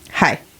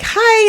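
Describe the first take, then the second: First: It is said in a flat, irritated way. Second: It is said in a friendly, cheerful way.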